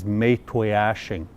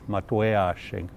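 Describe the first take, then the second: First: The name is said in an anglicized, altered way. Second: The name is said in its original native way. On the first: This form came from outside officials changing the name. The speaker calls it wrong. "It's been bastardized, and the way it's pronounced nowadays" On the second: This is the name as the family traditionally says it. The speaker calls it right. "the proper pronunciation"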